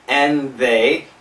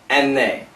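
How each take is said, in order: First: It is said at a moderately quick pace. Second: It is said very quickly. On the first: "A little bit faster" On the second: "Really fast"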